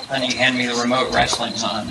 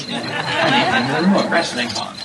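First: Said in the usual way. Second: A light, laughing put-on British accent; mock British accent. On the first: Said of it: "a British person can say". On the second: Debater envying British cadences, mock British accent. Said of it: "it just sounds brilliant".

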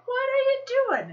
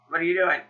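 First: High, mock-panicked question; hammed-up alarm, pitched way up; alarmed husband. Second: Suspicious husband. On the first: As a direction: squeal it like an exaggeratedly worried husband. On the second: Retold or imitated. Husband repeats, suspecting spending.

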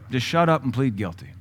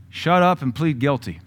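First: Said in the usual way. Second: "Shut up and plead guilty" said a bit louder, with a hard fall on "up"; blunt quoted command. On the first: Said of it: "That's what that means". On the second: Retold or imitated. Pastor quoting a blunt command to the congregation, firm and emphatic. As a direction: deliver the quote flatly, like a verdict. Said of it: "here's what that sounds like".

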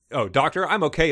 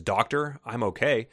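First: Hesitant. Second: Said in the usual way. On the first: A narrator's reading. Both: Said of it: "Alicia says hesitantly".

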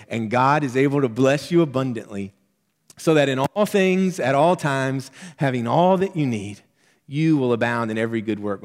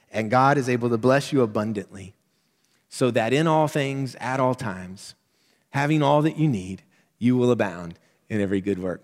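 First: Fervent repeat. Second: Measured reading with stress on each all; scripture reading. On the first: Preacher repeating verse to congregation, fervent and louder. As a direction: preach it again with rising fervor, punching all. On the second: Preacher reading verse to congregation, measured. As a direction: read the verse steadily, leaning on all. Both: Shown as a demonstration. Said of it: "Let me say it again".

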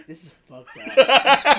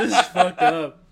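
First: Much higher, much louder slow mock outrage; imitating Joel. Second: Louder, laughing through the words; imitating brother, laughing. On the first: Retelling, he imitates Joel reacting to the movie. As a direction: stretch it out like a hammed-up Joel. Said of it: "Joel's like". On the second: Retelling, he imitates his brother laughing at the movie. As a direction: say it while cracking up. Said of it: "My brother's like".

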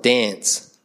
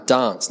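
First: Ocker "dance" with a short flattened a, as in "cat"; mock broad Australian vowel in "dance"; ocker Australian accent. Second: Proper, posh Adelaide "dance" with a long ah, like "dahnce"; Adelaide accent. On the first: Preacher showing what Adelaide avoids, ocker accent on "dance". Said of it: "We're not ochre". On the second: Preacher showing how Adelaide people speak, posh Adelaide accent on "dance". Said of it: "We're very proper and posh". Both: Shown as a demonstration.

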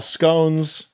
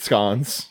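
First: "scones" with a long O; plain American "scones", vowel as in "bone"; American pronunciation. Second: "scones" with a short, open O; mock-British "scones", vowel as in "on"; British pronunciation. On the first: Shown as a demonstration. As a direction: say "scones" to rhyme with "cones". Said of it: "They call biscuits Scones". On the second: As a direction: say "scones" to rhyme with "cons". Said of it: "They call scones sweet scones".

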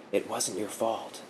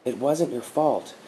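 First: Softer and slower, gently reassuring; softer, slower comfort for a sobbing man; tender reassurance. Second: Said in the usual way. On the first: A narrator's reading. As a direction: say it softly while stroking his hair. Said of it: "stroking his hair".

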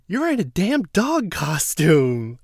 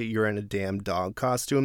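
First: Higher, louder, slow jeering jab; slow mocking put-down; mocking Davon. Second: Said in the usual way. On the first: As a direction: sneer it like a taunt. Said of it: "So Davon goes". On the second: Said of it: "when they say".

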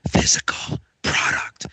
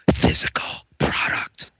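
First: Slow hushed whisper. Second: Hushed secret whisper. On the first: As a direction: breathe it out like a secret. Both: Shown as a demonstration. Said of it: "I'm gonna whisper into my microphone here".

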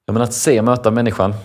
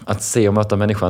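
First: "se" pushed up and out with a falling end; stressed SE. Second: Said in the usual way. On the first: Shown as a demonstration. Speaker to host, pushing the key idea, emphatic. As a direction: lean into "se och möta människan". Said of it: "repeats the phrase for emphasis". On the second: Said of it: "repeated phrase".

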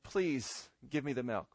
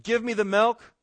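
First: Soft, low, polite asking; meek, lowered voice; polite request. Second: High, loud demand; bossy, raised-voice demand. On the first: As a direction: ask gently with a humble please. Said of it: "there's a difference between saying". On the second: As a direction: order it with force. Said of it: "you come and you demand". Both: Shown as a demonstration.

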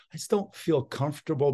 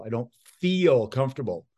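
First: Said in the usual way. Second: "feel" stressed above the other words. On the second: Shown as a demonstration. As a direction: put the weight on the word "feel". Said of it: "that's a kinesthetic person".

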